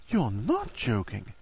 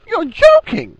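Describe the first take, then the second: First: Former depth regained. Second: Shrill choked-out squeak; high-pitched girlish yelp. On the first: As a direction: drop back down and say it slowly, softly. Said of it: "had reclaimed its former depth". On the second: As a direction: squeal it in shock, far higher and louder. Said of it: "choke out, in a high, girlish voice". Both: A narrator's reading.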